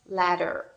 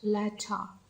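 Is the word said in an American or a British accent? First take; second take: American; British. First: It is said in an American accent. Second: It is said in a British accent. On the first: "I love the sound such as ladder" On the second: "in comparison with British accent"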